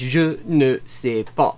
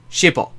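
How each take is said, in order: First: Every syllable is said, including ne. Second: The words are squeezed into two short syllables. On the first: This is the formal, textbook way. "the way you were you're taught in school, the proper way of saying" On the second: This is the casual, everyday way. "people often just say shipper"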